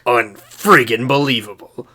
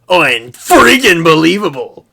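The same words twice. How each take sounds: First: It is said flat and deadpan, with low energy. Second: It is said hyped and excited, with high energy. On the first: "the complete lackadaisical deadpan voice from Reach" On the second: "it sounds like the guy is like high on speed and has pure adrenaline"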